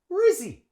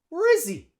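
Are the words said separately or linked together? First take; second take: linked; linked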